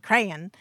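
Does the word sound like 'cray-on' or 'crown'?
cray-on. It is said with two syllables, like cray-on. It reflects a Southern background. "because of my Southern influence, I kind of say crayon"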